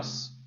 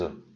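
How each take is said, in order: First: The final S sound is clearly pronounced. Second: The final S sound is left silent. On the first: There is only one bone. "quand c'est singulier, on prononce le S" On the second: There are several bones. "Quand c'est pluriel, on ne prononce pas le S"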